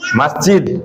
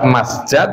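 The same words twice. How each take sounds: First: The vowel before the final d is 'i'. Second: The vowel before the final d is 'a'. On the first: "dikasroh dengan jimnya" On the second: "fathah jimnya"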